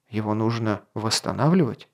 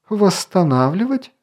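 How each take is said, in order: First: Said in the usual way. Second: High, rising "Восстанавливать?"; incredulous exclamation. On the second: A narrator's reading. Elf challenges the king's plan, incredulous exclamation. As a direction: throw the word back in disbelief. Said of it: "воскликнул Орелий".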